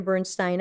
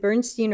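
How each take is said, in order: First: Bernstein said as BURN-stine; Bernstein ending in -stine. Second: Bernstein said as BURN-steen; Bernstein ending in -steen. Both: Shown as a demonstration. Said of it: "is it Bernstein or Bernstein?".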